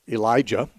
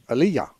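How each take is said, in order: First: The name is said with an English pronunciation. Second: The name is said with a Hebrew pronunciation. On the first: "names like Elijah" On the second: "they pronounced the words in the Hebrew pronunciation"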